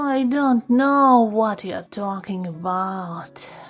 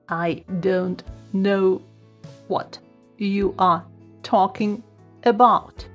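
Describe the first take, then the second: First: It is said in a tired voice. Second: It is said in a robotic voice. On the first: "Then tired voice" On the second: "Then robot voice"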